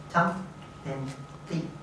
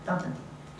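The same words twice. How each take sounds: First: It is said slowly, broken into parts. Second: It is said quickly at full speed. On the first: "I'll break it down" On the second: "now we'll do it at full speed"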